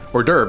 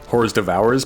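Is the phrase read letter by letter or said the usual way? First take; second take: usual way; letter by letter. First: It is said the usual spoken way. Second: It is read out letter by letter. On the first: This is how others say it aloud. "and then I would hear like hors d'oeuvre" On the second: The speaker only knew it from reading.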